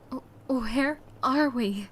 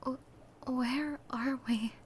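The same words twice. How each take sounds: First: It is said louder and more audibly. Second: It is said softly and timidly.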